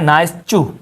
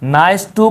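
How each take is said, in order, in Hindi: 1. 'to' शब्द की शुरुआत ch की आवाज़ से होती है। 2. 'to' शब्द की शुरुआत एक साफ़ t की आवाज़ से होती है।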